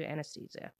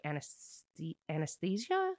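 First: Said in the usual way. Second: Halting "anesthesia?" with a questioning rise; unsure of word. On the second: Real, not acted. Vlogger unsure she can say the nursing term, hesitant. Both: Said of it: "I don't know that word".

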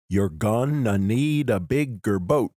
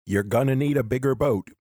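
First: Slow, beat out "gonna need a bigger boat" syllable by syllable; measured, alternating beats through "bigger boat"; iambic stresses. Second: Said in the usual way. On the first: Shown as a demonstration. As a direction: scan it slowly, leaning on "need" and "boat". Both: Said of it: "a lot of famous movie lines are iambic".

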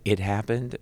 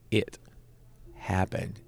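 First: Said in the usual way. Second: "it", long pause, then "happened"; emphatic pause. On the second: Shown as a demonstration. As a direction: set "it" apart, then let "happened" land. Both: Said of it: "when I say it happened".

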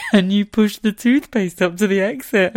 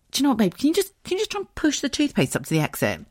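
First: Louder, high mocking replay of herself; self-mocking. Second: High, sweet wheedle to a partner; coaxing request. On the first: Wife mocking her own toothpaste request, laughing and incredulous. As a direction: make your own request sound ridiculous, near laughter. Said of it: "That's how much of a dick I sound". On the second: Retold or imitated. Wife asking her husband to fix the toothpaste, coaxing and high. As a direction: ask it carefully in a raised pitch. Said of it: "But I said".

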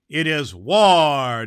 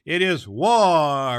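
First: Loud, slow proclamation; declaring war. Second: Loud, slow proclamation, retaken; declaring war. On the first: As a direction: thunder it out slowly. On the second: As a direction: boom the words out slowly. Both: A narrator's reading.

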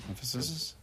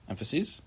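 First: Emphasis said EM-fuh-sis with a questioning rise; testing Emphasis aloud, ending -sis rising; emphasis, unsure. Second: Emphases said EM-fuh-seez with a questioning rise; testing Emphases aloud, ending -seez rising; plural emphases, unsure. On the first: Teacher asks class about the plural, trying Emphasis. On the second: Teacher asks class about the plural, trying Emphases. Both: Shown as a demonstration. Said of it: "Is that a word?".

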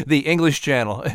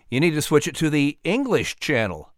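First: "English" pressed again with a chuckle; repeating the pun. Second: "English" leaned on as the pun word; punchline. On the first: Narrator repeating the English channel joke for the whale. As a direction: hammer "English" home. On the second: Narrator setting up the English channel pun. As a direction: land "English" as the joke. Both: Acted. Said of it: "Get it?".

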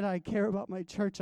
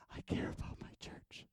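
First: Said in the usual way. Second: Whispered, breathy and hushed. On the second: Retold or imitated. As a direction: hush it to a whisper as God's confiding word. God's words, whispered.

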